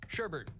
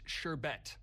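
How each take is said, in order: First: The second syllable has an extra r sound. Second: The second syllable has no r sound. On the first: The speaker calls it wrong. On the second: The speaker calls it right. "It's sherbet. There's no R"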